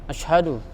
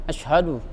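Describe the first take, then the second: First: The sh sound is weak, with little hissing. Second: The sh sound is weak, with little hissing.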